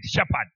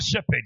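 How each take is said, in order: First: "shepherd" said "SHEP-ahd", with an open a ending; corrected pronunciation. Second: "shepherd" said "SHEP-ed", with an e in the second syllable; rejected pronunciation. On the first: Preacher giving the congregation his version, "shepherd" as "SHEP-ahd". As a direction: drop lower on "shepherd", broad "-ad" at the end. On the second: Preacher showing the congregation what not to say, "shepherd" as "SHEP-ed". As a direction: say "shepherd" with a light "-ped" ending. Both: Shown as a demonstration. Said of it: "And not shepherd".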